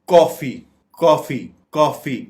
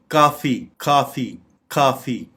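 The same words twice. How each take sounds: First: "कॉफ़ी" said KAW-fee; rounded vowel variant. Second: "काफ़ी" said KAA-fee; open vowel variant. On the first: Teacher showing the first way, "कॉफ़ी" as KAW-fee. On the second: Teacher showing the second way, "काफ़ी" as KAA-fee. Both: Shown as a demonstration. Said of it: "दोनों तरीके से pronounce".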